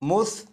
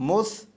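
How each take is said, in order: No difference in how they are said.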